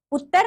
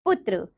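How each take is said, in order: First: "पुत्र" said high as "put-tar"; wrong pronunciation. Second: Said in the usual way. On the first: Shown as a demonstration. Teacher showing pupils the error, "पुत्र" mispronounced as "puttar". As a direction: end "पुत्र" in -tar, not -tra. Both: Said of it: "नहीं".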